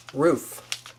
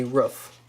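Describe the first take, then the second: First: "Roof" with a long OO, as in food; long, tense vowel in "Roof"; correct pronunciation. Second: "roof" with a short vowel, as in foot; lax, short vowel in "roof", like ruff; wrong pronunciation. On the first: Teaching viewers the right word, long OO. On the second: Warning viewers off this version, short vowel. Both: Shown as a demonstration. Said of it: "Do not say roof".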